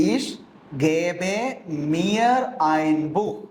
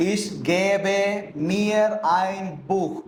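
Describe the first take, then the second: First: Ich, gebe, mir ein Buch, each word set apart, gebe rising; slow, word by word. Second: Said in the usual way. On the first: Shown as a demonstration. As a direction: spell out the sentence word by word for learners. (വാക്ക് വാക്കായി പതുക്കെ) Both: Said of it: "അതെങ്ങനെ വരും?".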